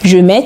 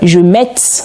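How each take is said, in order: First: The final t sound is silent. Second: The final t sound is pronounced. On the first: The speaker calls it right. "On prononce je mets" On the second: The speaker calls it wrong. "On ne dit pas, par exemple, je mette, non"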